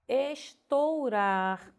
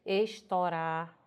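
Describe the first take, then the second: First: "estourar" bem lento, com ditongo OU; pronúncia correta. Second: "estourar" dito estórar, sem o U; O aberto. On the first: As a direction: silabe "estourar" como es-tou-rar. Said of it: "Se você pronunciar corretamente". ("estourar" com o U bem audível) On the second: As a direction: abra o O de "estourar", sem ditongo. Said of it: "como se o pronúncia fosse um O aberto". ("estourar" à moda popular, com Ó) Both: Shown as a demonstration.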